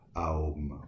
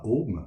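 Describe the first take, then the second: First: It starts with an a gliding into o. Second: It starts with a single o vowel. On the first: The speaker calls it right. "mais A-O-M" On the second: The speaker calls it wrong. "qui se prononce d'ailleurs pas Om"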